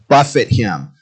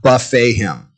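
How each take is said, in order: First: The word ends like 'fit', stress on first syllable. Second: The word ends like 'fay', stress on second syllable. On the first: To strike or punch someone. The speaker calls it right. "to buffet him" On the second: An all-you-can-eat meal. The speaker calls it wrong. "not buffet him"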